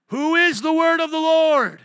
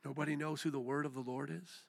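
First: High, booming shout to the congregation; full-force pulpit yell; preacher's shouted challenge. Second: Hushed, let-down rising question; quiet disbelief. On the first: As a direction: roar the question, stretching the last word. Preacher demanding congregation answer. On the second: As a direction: drop right down and ask in disappointment. Disappointed that nobody answered. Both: Real, not acted.

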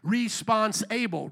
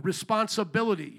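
First: Response-able, pulled apart and slow. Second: Said in the usual way. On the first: Shown as a demonstration. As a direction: split it into response and able, slowly. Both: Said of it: "we always like to emphasize".

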